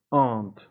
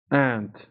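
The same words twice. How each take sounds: First: British "Aunt" with an open AH, ahnt; broad-A British vowel in "Aunt"; British pronunciation. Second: American aunt, said like "Ant"; American pronunciation. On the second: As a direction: front short A in "Ant", American style. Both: Shown as a demonstration.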